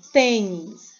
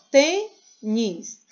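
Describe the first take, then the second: First: Said in the usual way. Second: "tênis" slowly split into two syllables, tê, nis; clap-out style "tênis", tê (pause) nis. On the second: Shown as a demonstration. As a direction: break "tênis" after tê, stretching each part. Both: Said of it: "Tem duas sílabas".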